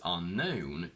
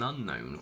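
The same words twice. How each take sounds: First: The stress is on the last syllable. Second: The stress is on the first syllable. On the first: The word stands on its own. "on their own have their stress on the last syllable" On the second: The word comes before a noun. "the stress shifts to the front"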